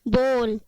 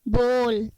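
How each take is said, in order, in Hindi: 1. स्वर की ध्वनि 'oh' जैसी है, जैसे go में। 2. स्वर की ध्वनि 'oh' जैसी है, जैसे go में।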